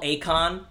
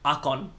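First: The name is said with a standard pronunciation. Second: The name is said with a Greek accent. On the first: This is the usual way to say it. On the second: This is how Greek speakers say it.

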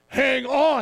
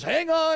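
First: It is said in a deeper voice. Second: It is said in a normal voice.

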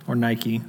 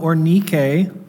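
First: It is said the familiar English way. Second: It is said in an unfamiliar, non-English way.

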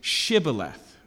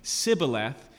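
First: The word begins with an 'sh' sound. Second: The word begins with a plain 's' sound. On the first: The speaker is a local. "So the SH noise is the difference" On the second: The speaker is not a local. "when they lisp it without the SH"

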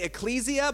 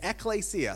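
First: The word is said the common anglicized way. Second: The word is said the way Greek speakers say it. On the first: The speaker calls it wrong. "Some people would say ecclesia" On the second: The speaker calls it right. "actual Greek people who say, no, it's ecclesia"

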